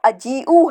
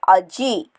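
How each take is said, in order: First: The word ends with an extra final vowel. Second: The word ends short without a final vowel. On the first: This is the proper full form. "Right word जो है वो अजीऊ है" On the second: This is the quick everyday form. "अरब लोग जो हैं इसको अजी इस्तेमाल करते हैं क्योंकि वो ज़रा जल्दी जल्दी बोलते हैं"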